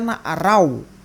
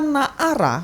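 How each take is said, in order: First: The word ends with an 'au' glide sound. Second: The word ends with a plain long 'a' sound. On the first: The speaker calls it wrong. "Karena itu jelas keliru" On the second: The speaker calls it right. "na'ara nggak bisa dibaca na'arau"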